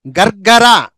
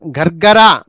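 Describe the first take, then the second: No difference in how they are said.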